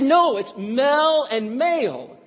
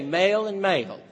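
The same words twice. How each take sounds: First: Slow, higher, "Mel" short e and "male" long a; teacher correcting, "Mel" versus "male"; correcting pronunciation. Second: Both words said "male", Tennessee vowel; Southern drawl, male for Mel. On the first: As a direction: spell out the difference, "Mel" then "male". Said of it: "They said". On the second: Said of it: "And she say". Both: Retold or imitated.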